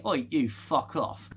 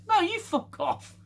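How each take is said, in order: First: Joking cheeky telling-off; mock indignant retort. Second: High-pitched squabbling retort; mock indignant comeback. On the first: Alien species telling the ship to get lost, mock indignant. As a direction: play a mildly rude alien brush-off. Acts out aliens swearing in signal. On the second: Ship answering the aliens' insult, mock indignant and high. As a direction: fling the insult back in a much higher voice. Ship's translated retort, acted.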